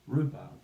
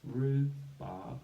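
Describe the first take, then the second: First: Said in the usual way. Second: RHUBARB split into rhu, barb, loud and measured; syllable by syllable. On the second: Shown as a demonstration. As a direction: stretch and separate the halves of RHUBARB. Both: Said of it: "use the syllables to build the word".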